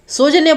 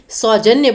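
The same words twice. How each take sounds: First: The first vowel is a plain 'o' sound. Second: The first vowel is an 'au' sound. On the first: The speaker calls it wrong. "सौजन्य बोलते हैं क्या हम? नहीं" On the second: The speaker calls it right. "औ की मात्रा आएगी, ओ की मात्रा नहीं आएगी"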